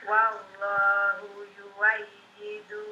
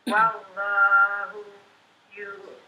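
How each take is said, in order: The two takes are said the same way.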